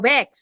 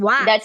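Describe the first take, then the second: First: The vowel is said with spread, smiling lips. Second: The vowel is said with open, unspread lips. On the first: "you have to say Wex. ... end smile" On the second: "the other one is"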